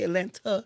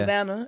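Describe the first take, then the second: First: The second T sound is clearly pronounced. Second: The second T sound is dropped. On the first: This is how outsiders say the name. The speaker calls it wrong. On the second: This is how locals say the name. The speaker calls it right.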